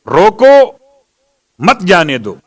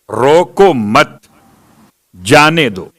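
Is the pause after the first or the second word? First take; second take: first; second. First: The pause comes after the first word, roko. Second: The pause comes after the second word, mat.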